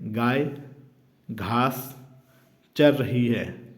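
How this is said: It pauses after the first and second words. The meaning is unclear and invites guessing. The speaker calls it wrong. "यहाँ गाय शब्द बोलकर रुक जाने से"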